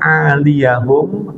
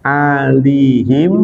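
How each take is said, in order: First: The ya carries an a vowel, four syllables. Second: The ya has no vowel, three syllables. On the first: "boleh iya-nya itu dipathahin" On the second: "boleh iya-nya itu disukunin"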